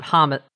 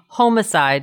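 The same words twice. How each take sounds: First: The first vowel is a short 'ah' sound. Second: The first vowel is a long 'oh' sound. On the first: "instead of ha, like in the ah sound" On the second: "it would be ho as in homo"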